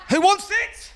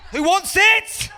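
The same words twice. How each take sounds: First: Cocky challenge. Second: High, louder laughing challenge; louder cocky shout. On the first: Mate challenging in street fight. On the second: Karate mate in a street fight, louder high taunting shout. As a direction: taunt the whole street even harder. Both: Acted.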